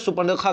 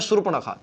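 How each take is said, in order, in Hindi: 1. 'r' की ध्वनि 'p' के बाद आती है। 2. 'r' की ध्वनि 'p' से पहले आती है। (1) "बहुत लोग इसे सुपर्णखा कहते हैं" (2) "होता है सुर्पणखा"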